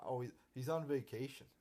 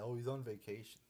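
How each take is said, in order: First: Sarcastic singsong of the lame excuse; mock excuse. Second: Lightly sarcastic parroting of the excuse; mock excuse. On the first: Ranting fan mocks the show's vacation excuse, sarcastic. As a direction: sneer it like a flimsy excuse. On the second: Ranting fan quotes the show's excuse, mildly sarcastic. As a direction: parrot the excuse with mild disdain. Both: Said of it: "I hate how they say that".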